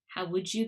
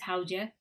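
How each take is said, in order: First: Each word is said fully and separately. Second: The words merge, with a j sound in the middle.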